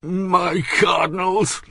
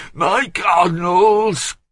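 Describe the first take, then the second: First: High, slow grumble rising in protest; grumbling. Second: High, loud, slow grumble falling hard; grumbling louder. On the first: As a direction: drag out the first grumble. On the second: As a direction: repeat it louder and fed up. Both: A narrator's reading. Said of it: "grumbled Bouville".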